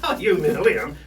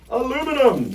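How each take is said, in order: First: It is said the British way, five syllables. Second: It is said the North American way, four syllables.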